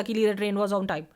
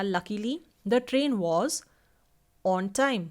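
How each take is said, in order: First: "Luckily the train was on time" rushed through with no pause at all; all in one breath. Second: "Luckily", then a clear breath pause before "the train was on time"; pause after luckily. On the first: Teacher showing students the wrong way, rushed in one breath. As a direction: run the whole line together without breathing. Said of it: "of course आप ऐसे नहीं बोलो". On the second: Teacher showing students the correct tone group, pausing after "Luckily". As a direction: break the sentence after "Luckily". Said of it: "आप उधर रुकोगे". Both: Shown as a demonstration.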